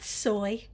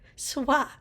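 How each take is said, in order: First: The word rhymes with 'boy', like soybeans. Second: The word does not rhyme with 'boy'. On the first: The speaker calls it wrong. "Not soy. It's not soybeans" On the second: The speaker calls it right.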